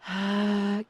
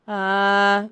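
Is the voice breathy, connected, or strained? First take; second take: breathy; connected. First: The sound is airy and breathy. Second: The sound is clear and balanced.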